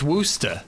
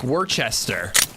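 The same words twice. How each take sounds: First: The word is shortened to fewer syllables. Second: Every written syllable is pronounced in full. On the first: The speaker calls it right. "but it's Worcester" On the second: The speaker calls it wrong. "It's spelled like Worcester"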